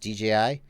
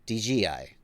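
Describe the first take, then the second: First: The middle letter is said as 'jay'. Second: The middle letter is said as 'gee'. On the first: The speaker calls it right. "I know it's D J I" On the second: The speaker calls it wrong. "You're hearing D G I"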